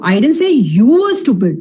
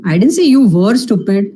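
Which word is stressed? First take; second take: you; were. First: The word 'you' carries the main stress. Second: The word 'were' carries the main stress. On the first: Someone else was meant, not the listener. "I was talking about somebody else, not you" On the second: The listener is still stupid now. "Maybe you still are stupid"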